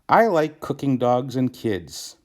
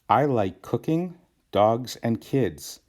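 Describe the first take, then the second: First: It runs straight through with no pauses. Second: There is a pause after the third word. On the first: The speaker likes to cook dogs and kids. The speaker calls it wrong. "That's weird" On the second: The speaker likes cooking, and likes dogs and kids. The speaker calls it right. "Just by adding one comma"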